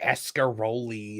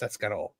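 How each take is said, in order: First: The word ends with an added final vowel. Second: The word ends on the final l sound. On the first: This is how many other people say it. The speaker calls it wrong. "A lot of people will say like" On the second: This is how the speaker's own community says it. The speaker calls it right. "It's like no, it's"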